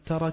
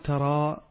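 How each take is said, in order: First: The word ends in a short a vowel. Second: The word ends in a long a vowel. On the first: The speaker calls it right. "لكن إذا وصلنا نقول ألم ترى كيف فعل" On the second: The speaker calls it wrong. "لا نقول ترى بالألف"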